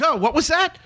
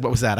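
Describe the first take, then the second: First: Raised, feigned-innocent "Oh, what was that?"; mock innocent question. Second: Said in the usual way. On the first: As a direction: pretend you didn't hear him, lightly. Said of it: "And no, actually, I don't think I said". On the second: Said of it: "I don't think I said".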